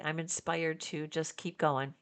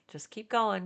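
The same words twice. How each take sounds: First: Said in the usual way. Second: Going repeated with more push; emphatic repeat. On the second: Real, not acted. Vlogger urging her viewers on, emphatic repeat. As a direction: press just keep going home to the viewers. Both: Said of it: "Just keep going, guys".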